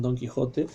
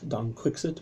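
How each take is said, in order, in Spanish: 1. La consonante del medio es un sonido j fuerte. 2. La consonante del medio es un sonido ks.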